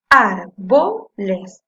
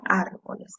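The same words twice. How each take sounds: First: "Árboles" loud and very slow, in three chunks; syllable by syllable. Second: Said in the usual way. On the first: Shown as a demonstration. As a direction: punch out "Ár", "bo", "les" separately. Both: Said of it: "Voy a separar en sílabas".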